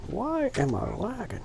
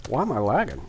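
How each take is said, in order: First: High-pitched exasperation. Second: Said in the usual way. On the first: Real, not acted.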